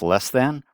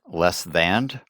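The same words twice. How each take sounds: First: The last word is said plainly as than. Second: The last word ends with an added and sound.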